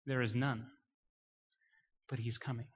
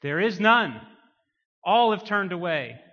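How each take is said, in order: First: Low, soft, subdued delivery; hushed preaching. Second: Loud, raised preacher's declaration; forceful proclamation. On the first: Preacher giving the message of the prophets, hushed. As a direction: let it sink almost to a hush. Hushed take before the loud repeat. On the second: Preacher declaring that all have turned away, full-force preaching. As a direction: hammer it out to the congregation. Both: Real, not acted.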